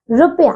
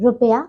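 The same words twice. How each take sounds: First: रुपया with a long "roo": roopya; mispronunciation. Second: रुपया with a short "ru"; correct pronunciation. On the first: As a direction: stretch the first vowel of रुपया. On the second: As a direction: keep the start of रुपया short. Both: Shown as a demonstration. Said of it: "रुपया नहीं".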